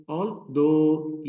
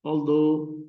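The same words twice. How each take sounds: First: Although split, THOUGH held long; al... THOUGH, second syllable drawn out; stress on second syllable. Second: Although run together, THOUGH stressed; al-THOUGH in one quick join; stress on second syllable. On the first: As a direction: stretch and punch the though in although. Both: Shown as a demonstration. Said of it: "ये इसकी sound दो की longer है".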